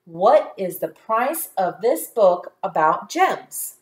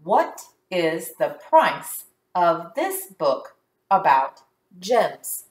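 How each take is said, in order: First: Smooth, connected read-along; words joined without gaps; nice and smooth. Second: Slow, word-by-word reading with small gaps; careful, separated words; slow read-along. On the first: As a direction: read it as one flowing sentence. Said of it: "nice and smoothly". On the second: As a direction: read it slowly for learners to follow. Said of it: "Let's read it together". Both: Shown as a demonstration.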